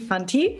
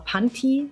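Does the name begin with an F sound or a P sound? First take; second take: F; P. First: The name begins with an F sound. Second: The name begins with a P sound. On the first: This is how the name's owner says it. The speaker calls it right. "Ich sage immer PH, was wir auch nicht Fotograf oder Fantasie" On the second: This is how some other people say the name. The speaker calls it wrong. "Manche sagen immer Panti"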